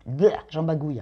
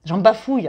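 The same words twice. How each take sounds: First: "bagouille" with a hard g in place of the f; tongue slip bagouille. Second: "bafouille" said right, with a clear f; corrected word. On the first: Real, not acted. Reader catching her own slip on "bagouille". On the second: Shown as a demonstration. Correcting her slip to "bafouille", a touch louder. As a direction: fix the slip and land "bafouille" with a firm f.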